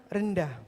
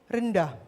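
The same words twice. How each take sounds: The two takes are said the same way.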